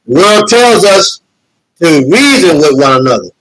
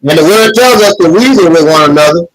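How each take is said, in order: First: "The word tells us" slowed, stress on "tells", a pause, then "to reason" falling; preacher repeating the line slowly with weight on "tells"; slow emphatic repeat. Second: Said in the usual way. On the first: Shown as a demonstration. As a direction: stress "tells" and slow down, like driving a verse home.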